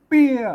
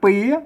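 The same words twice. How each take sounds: First: The syllable is said with the northern tho tone. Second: The syllable is said with a rising tone. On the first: "เสียงโทเมือง" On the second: "จัตวา"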